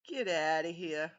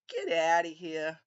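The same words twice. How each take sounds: First: It is said in the speaker's ordinary voice. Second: It is said in a put-on character voice.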